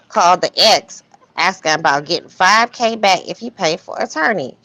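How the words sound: It is read in an imitated, matter-of-fact voice.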